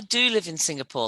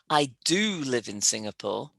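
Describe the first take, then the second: First: The word 'do' is said without emphasis. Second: The word 'do' is said with strong emphasis. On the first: The speaker calls it wrong. "but not I do live in Singapore like that. You would never say it like that" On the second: The speaker calls it right. "You've got to emphasize the auxiliary verb"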